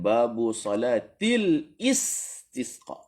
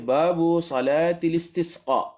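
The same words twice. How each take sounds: First: A glottal stop begins the last word. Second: The last word links smoothly to the one before. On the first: The speaker calls it wrong. "bukan babu salatil istisqa" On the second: The speaker calls it right. "saya tulis babu salatil istisqa"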